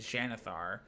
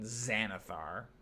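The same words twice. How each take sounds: First: The name begins with a ks sound. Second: The name begins with a z sound. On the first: The speaker calls it right. "It makes a X sound, so it should be Xanathar" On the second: The speaker calls it wrong. "rather than Xanathar"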